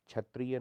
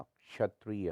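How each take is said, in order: First: क्षत्रिय said as chhatriya; chh for ksh. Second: Said in the usual way. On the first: Shown as a demonstration. Teacher shows the error, क्षत्रिय with chh. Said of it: "नहीं होता". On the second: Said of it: "होता है".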